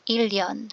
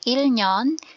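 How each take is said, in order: First: The middle consonants sound like a double l. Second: The middle consonants sound like l then n. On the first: The speaker calls it right. "ilyon pala dapat" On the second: The speaker calls it wrong. "hindi siya ilnyon"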